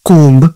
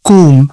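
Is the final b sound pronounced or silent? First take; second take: pronounced; silent. First: The final b sound is pronounced. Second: The final b sound is silent. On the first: The speaker calls it wrong. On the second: The speaker calls it right.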